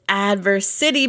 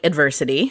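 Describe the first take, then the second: First: The final part 'city' stands out as its own word. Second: It sounds like the ordinary word, stressed on 'ver'. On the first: It refers to building a city. The speaker calls it right. "because you are building a city" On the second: It is the ordinary word for hardship. The speaker calls it wrong. "it's not like adversity"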